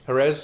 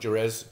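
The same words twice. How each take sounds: First: It is said the local Spanish way. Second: It is said in an anglicized way. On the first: This is how the locals say the name. The speaker calls it right. "as they call it" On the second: This is a common mispronunciation of the name. The speaker calls it wrong. "not Jerez. There's a lot of people kind of mispronounce it"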